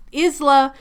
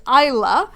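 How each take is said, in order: First: Isla with a voiced z, short i; mispronounced name. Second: Isla with long i, silent s; correct pronunciation. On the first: Owning up to the wrong name, mispronounced as IZ-luh. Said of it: "I pronounced that name wrong". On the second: Correcting the name for viewers, pronounced EYE-luh. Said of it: "it is Isla". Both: Shown as a demonstration.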